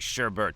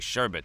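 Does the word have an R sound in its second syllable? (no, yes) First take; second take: yes; no. First: The second syllable has an R sound. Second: The second syllable has no R sound. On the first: The speaker calls it right. "There's an R in there" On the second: The speaker calls it wrong. "You don't say sherbet, they'll laugh at you"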